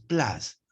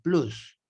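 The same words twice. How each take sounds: First: It is said with English sounds. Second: It is said with Spanish-style sounds. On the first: The speaker calls it right. "En inglés es plus" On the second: The speaker calls it wrong. "acá en Ica lo pronuncia de esa manera"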